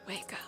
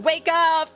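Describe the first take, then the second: First: It is said quietly. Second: It is said loudly.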